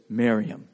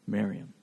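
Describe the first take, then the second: First: Jesus quietly calling Mary by name; tender, quiet name. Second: Hushed name. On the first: Retold or imitated. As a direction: say Miriam softly and low, falling. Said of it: "he simply just says". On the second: Shown as a demonstration. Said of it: "That would be her name in Aramaic".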